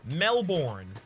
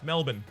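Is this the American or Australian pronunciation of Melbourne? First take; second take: American; Australian. First: The second syllable sounds like full 'borne'. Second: The second syllable is reduced to a short 'bun'. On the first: "Americans will always pronounce it Melbourne" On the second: "But we pronounce it M E L B U N"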